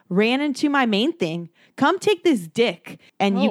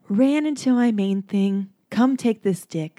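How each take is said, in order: First: It is said flatly, without tenderness. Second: It is said in a loving, tender tone.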